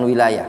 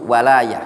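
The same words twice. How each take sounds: First: "wilayah" opening on wi; the other reading, "wilayah" with wi- rather than wa-; contrasting reading. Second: "walaya" opening on wa, drawn out slowly; teacher's slow model of "walaya", wa- not wi-; shown reading. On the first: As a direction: say "wilayah" with an i in the first syllable. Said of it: "bukan wilayah". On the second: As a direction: say "walaya" slowly with an a in the first syllable. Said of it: "cara bacanya". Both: Shown as a demonstration.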